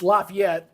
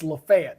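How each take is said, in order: First: The name is said the Louisiana way. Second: The name is said the Alabama way. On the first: This is how the Louisiana city is called. "if you're in Louisiana, it's Lafayette" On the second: This is how the Alabama town is called. "but in Alabama, it's Lafayette"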